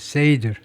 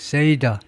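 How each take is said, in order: First: The word ends with a bare D sound. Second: The word ends with a D-er sound. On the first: The speaker calls it wrong. "세이드가 아니고" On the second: The speaker calls it right. "세이더 정도인데요"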